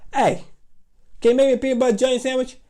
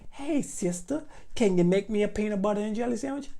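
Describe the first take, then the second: First: It is said in an acted childish voice. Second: It is said in a plain narrating voice.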